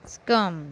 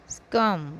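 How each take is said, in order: Both takes have the same delivery.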